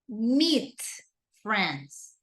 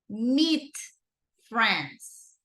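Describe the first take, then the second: The two takes are said the same way.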